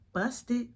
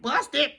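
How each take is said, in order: First: Softer, sly one-word jab; hushed taunt. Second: Mocking repeat. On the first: Retold or imitated. Nana on the couch needling the kid, hushed taunt. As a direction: slip it out under your voice. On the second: Quotes nana's remark back in complaint.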